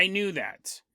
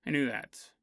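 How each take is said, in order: First: Softer, a bit embarrassed; sheepish admission. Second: Much lower and softer, fading away; sheepish trailing repeat. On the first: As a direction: mumble it like caught out. Captain admits knowing, sheepish. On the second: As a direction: let it die off under your breath. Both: Retold or imitated.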